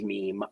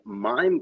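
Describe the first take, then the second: First: The vowel is pronounced like 'ee'. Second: The vowel is pronounced like 'eye'.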